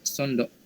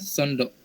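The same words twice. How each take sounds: No difference in how they are said.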